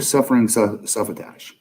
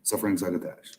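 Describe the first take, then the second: First: "suffering su-, suffratash" stumbled, mangled into suffratash; tongue-tied flub. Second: "suffering succotash" clearly and correctly pronounced. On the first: Real, not acted. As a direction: trip over "suffratash" and mumble it. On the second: Shown as a demonstration. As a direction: get "succotash" right this time. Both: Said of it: "I can say suffering succotash".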